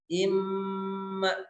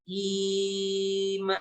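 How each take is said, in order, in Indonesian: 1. Bunyi sengaunya yang dibaca panjang. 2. Vokal pertama yang dibaca panjang. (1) "yang ditahan itu adalah gunnahnya" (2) "i-nya yang dibaca panjang"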